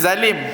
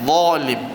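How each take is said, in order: First: The word is said light and open. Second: The word is said heavy and thick. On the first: This is how Malay speakers usually say it. The speaker calls it wrong. "Zalim kita zalim kan, jadi buka" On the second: This is how Arabs say it. The speaker calls it right.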